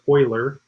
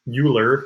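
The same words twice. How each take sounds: First: The name is said with its original reading. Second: The name is said with a typical English reading. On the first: The speaker calls it right. "it's actually pronounced Euler" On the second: The speaker calls it wrong. "that's how we would pronounce it typically"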